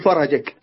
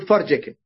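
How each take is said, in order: First: A vowel follows the r sound. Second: No vowel follows the r sound. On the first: The speaker calls it wrong. "ولا تقول فرجك" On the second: The speaker calls it right. "تقول فرجك بسكون الراء"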